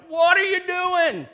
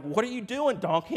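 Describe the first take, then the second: First: Very high, slow, full-volume screech; outraged donkey. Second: High, loud scolding yell; exasperated Balaam. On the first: Beaten donkey to Balaam, shrieking protest. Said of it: "the donkey's like". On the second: Balaam to his balking donkey, exasperated yell. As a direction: demand an explanation, voice jumping up loud. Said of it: "And Balaam was like". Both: Acted.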